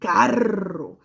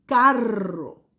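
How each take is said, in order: First: "carro" said loudly with a trilled rr; teacher says "carro" with a clear rolled rr; clear model word. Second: "Carro" said again with a trilled rr; teacher repeats "Carro" stressing the rolled rr; repeated model word. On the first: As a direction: give the kids the word. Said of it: "este es un". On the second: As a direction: repeat it for the class. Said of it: "tiene el sonido de la doble R". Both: Shown as a demonstration.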